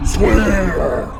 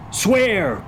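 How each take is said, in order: First: Loud, high resounding shout; ghostly echo. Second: High, emphatic command; crying out. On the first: Ghost echoing Hamlet's demand for an oath, shouting. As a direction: wail it like a phantom. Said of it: "the ghost echoed". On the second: Hamlet demanding an oath from comrades, crying out. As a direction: cry the order out. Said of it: "cried Hamlet". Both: Acted.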